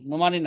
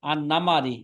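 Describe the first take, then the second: First: The first vowel of the name is 'u'. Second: The first two vowels of the name are 'a'. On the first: The speaker calls it wrong. "নুমারি না" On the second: The speaker calls it right. "বিফাতি নুন অল মিম। আর নামারি"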